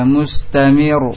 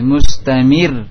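First: The final r is pronounced heavy and thick. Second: The final r is pronounced light and thin. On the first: The speaker calls it wrong. "tidak mustamir" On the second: The speaker calls it right. "Mir tipis"

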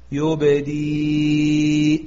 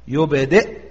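First: The word ends in a long i vowel. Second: The word ends in a silent glottal stop. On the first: "فأبدلت حرف مد" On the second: "اعتبرنا بسكونها العارض"

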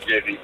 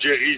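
First: The name is pronounced the Dutch way. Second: The name is pronounced the English way. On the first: "als het Nederlander het zegt, dan is het vaak Jerry" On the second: "Als de Engelsman het zegt, dan zou het Jerry zijn"

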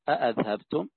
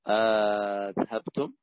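First: The word begins with two full glottal stops. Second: The word begins with a stop and a long vowel. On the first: "وبهمزتين" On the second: "وبهمزة ومدة"

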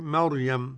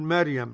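First: The r sound is heavy and full. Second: The r sound is light and thin. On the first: The speaker calls it right. "لا احنا نقول مريم" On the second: The speaker calls it wrong. "قرأها بالترقيق ورد عليه"

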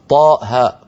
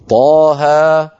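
First: Each letter name ends in a glottal stop. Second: Each letter name ends in an open vowel. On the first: The speaker calls it wrong. "ما في قارئ يقول طاء هاء" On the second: The speaker calls it right. "وإنما يا سين طاها"

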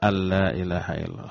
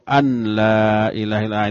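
First: The n sound is dropped, merging into la. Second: The n sound is pronounced before la. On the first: The speaker calls it right. "Huruf nunnya hilang bunyinya" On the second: The speaker calls it wrong. "orang itu enggak bisa ngaji itu"

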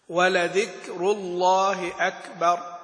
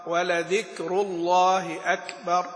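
The two takes are said the same way.

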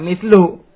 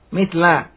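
First: The word ends with a short u vowel. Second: The word ends with a short a vowel. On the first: It describes a noun in the nominative case. "Adapun kalau untuk baca ibnun, maka mitlu" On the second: It describes a noun in the accusative case. "maka mislnya dibaca fathah"

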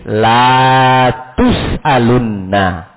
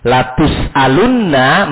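First: The first syllable has a lengthened vowel. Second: The first syllable has a short vowel. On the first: You will not be asked. The speaker calls it wrong. "Atau menambah huruf" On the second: You will surely be asked. The speaker calls it right. "Yang tadinya lam takkid"

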